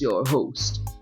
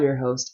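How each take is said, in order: First: It is said in a put-on sinister voice. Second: It is said in a natural everyday voice. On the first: "I don't actually talk like this" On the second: "Just kidding"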